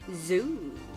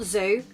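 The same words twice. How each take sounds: First: The vowel is drawn out long. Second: The vowel is short and plain. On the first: The speaker calls it right. "with three O's. You have to say it like this" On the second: The speaker calls it wrong. "Not zoo"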